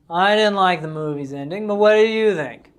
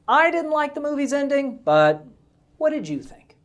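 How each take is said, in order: First: The pitch stays flat with little variation. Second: The pitch rises and falls with clear pauses. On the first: The speaker calls it wrong. "Now look at what monotone looks like" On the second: The speaker calls it right. "look at the pitch and pauses in this phrase"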